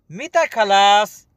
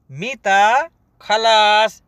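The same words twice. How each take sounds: First: Said in the usual way. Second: "मीता खलास" said slowly, stretching "खलास"; slow teaching repeat. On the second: Shown as a demonstration. Teacher repeats the question slowly for learners. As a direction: pace "मीता खलास" out for students.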